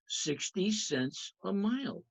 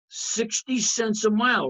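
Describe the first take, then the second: First: Slow, soft restatement of "Sixty cents a mile"; calm, drawn-out repeat for the class; slow, softer repeat. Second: Said in the usual way. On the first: Shown as a demonstration. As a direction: let "mile" settle gently, more slowly and much quieter. Teacher repeats the rate slowly.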